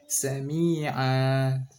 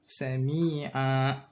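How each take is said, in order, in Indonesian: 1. Vokal akhir dilepas terbuka tanpa hentian. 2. Vokal akhir dihentikan oleh hentian glotis. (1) "itu dilepas saja" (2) "kayak di belakangnya itu ada hamzah"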